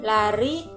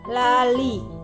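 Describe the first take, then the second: First: The middle consonant is an R sound. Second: The middle consonant is an L sound. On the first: This is how an adult says the word. The speaker calls it right. "kata yang sebenarnya" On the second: This is how a small child says the word. The speaker calls it wrong. "anak akan mengucapkan kata lali"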